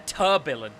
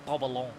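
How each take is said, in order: First: It is pronounced with an English accent. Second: It is pronounced with a French accent. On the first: "that sounds as bad as it sounded just then" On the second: "I have to go French to pronounce it"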